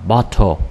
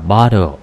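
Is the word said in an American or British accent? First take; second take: British; American. First: It is said in a British accent. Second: It is said in an American accent. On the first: "tiếng Anh ha, Anh" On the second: "âm Mỹ"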